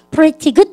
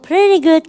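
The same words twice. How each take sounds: First: The t in pretty is a clear t. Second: The t in pretty is a soft flap. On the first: This is how British speakers say it. "그러지 않고" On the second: This is how North American speakers say it. "트가 르로 변해서요"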